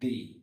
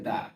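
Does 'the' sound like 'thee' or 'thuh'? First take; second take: thee; thuh. First: The vowel is a long 'ee' sound. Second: The vowel is a short, weak 'uh' sound. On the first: "ভাওয়েলের পূর্বে আমরা উচ্চারণ করব দি" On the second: "কনসোনেন্টের পূর্বে আমরা উচ্চারণ করব দা"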